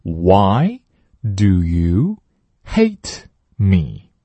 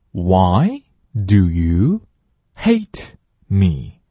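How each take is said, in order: First: Very slow, stress on you; 慢速领读; slow model read. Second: Very slow, stress on why; 慢速领读; slow model read. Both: Shown as a demonstration. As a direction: spell it out slowly. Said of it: "第二句".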